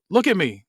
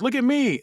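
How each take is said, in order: First: Restrained, slightly raised version of a scream; hint at a scream, voice lifted and falling; half-hearted scream; mild mock scream. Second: High-pitched scream held back in volume; strained acted cry, falling at the end; mock scream. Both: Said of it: "then scream".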